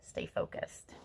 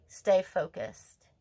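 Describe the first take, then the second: First: Soft whispered echo; whispered repeat. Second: Slow, deliberate, each word weighted; slow firm urging. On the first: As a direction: whisper it as a secret reminder. Repeats card advice as whisper. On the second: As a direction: drive it home slowly. Card reading, urging viewer. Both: Real, not acted.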